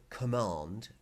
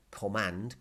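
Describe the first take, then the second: First: "command" with a long "ah", as in "com-MAHND". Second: "command" with the short "a" of "hand". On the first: Teacher linking mandón to English, "command" with long "ah". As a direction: say "command" with an open back "ah". Word shown with two different vowels. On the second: Teacher offering the other English pronunciation, "command" with short "a". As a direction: say "command" as "com-MAND", flat front vowel. Same word, vowel switched for contrast. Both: Shown as a demonstration.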